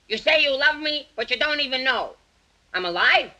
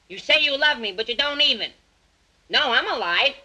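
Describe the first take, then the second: First: It sounds questioning and doubtful. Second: It sounds like a definite statement.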